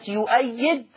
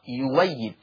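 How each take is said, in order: First: A glottal stop is pronounced in the word. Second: The glottal stop is replaced by a w sound.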